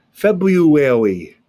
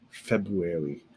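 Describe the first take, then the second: First: February stretched slowly, every syllable drawn out; February spoken slowly and deliberately for students. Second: Said in the usual way. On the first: Shown as a demonstration. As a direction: draw February out slowly and carefully. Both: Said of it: "demonstrating the word slowly".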